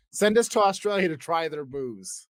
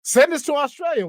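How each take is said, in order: First: Said in the usual way. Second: High, loud eager begging; excited plea. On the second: Acted. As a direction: shout it out like a pitch.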